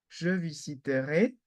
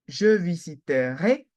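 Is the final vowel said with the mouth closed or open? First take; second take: closed; open. First: The final vowel is said with a closed mouth. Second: The final vowel is said with an open mouth. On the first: It expresses a conditional. "imparfait ... fermée" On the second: It refers to a future action. "futur ... position ouverte"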